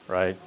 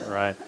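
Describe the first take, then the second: No difference in how they are said.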